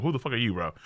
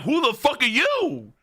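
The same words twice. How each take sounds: First: Subdued retold shock. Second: High-pitched incredulous demand; shocked disbelief. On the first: Recalling what scared him, muted disbelief. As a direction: play the shock down, quietly. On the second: Retold or imitated. Reacting to a man's changed look, shocked outburst. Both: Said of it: "I'm like".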